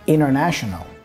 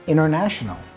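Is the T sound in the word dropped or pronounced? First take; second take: dropped; dropped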